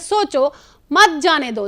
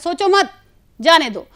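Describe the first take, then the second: First: There is a pause after 'सोचो'. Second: There is a pause after 'मत'.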